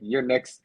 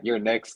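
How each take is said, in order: First: It sounds friendly, like a fan's comment. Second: It sounds threatening, like a warning of attack.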